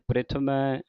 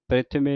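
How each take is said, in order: First: The word ends in an 'ai' sound. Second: The word ends in a plain 'e' sound. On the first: The speaker calls it right. "ਪ੍ਰਿਥਮੈ ਮੰਮੇ ਨੂੰ ਦਲਾਵਾਂ ਲੱਗੀਆਂ" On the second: The speaker calls it wrong. "ਪ੍ਰਿਥਮੇ ਨਹੀਂ ਕਹਿਣਾ"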